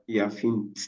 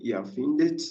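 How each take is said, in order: First: The verb ends directly in a consonant cluster. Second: The verb has an extra vowel before the final t. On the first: The speaker calls it wrong. "and not Erfint" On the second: The speaker calls it right. "should be what to say"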